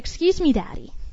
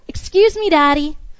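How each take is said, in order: First: It is said at a normal, softer volume. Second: It is said a little louder.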